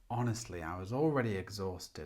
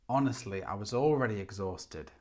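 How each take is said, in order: The two takes are said the same way.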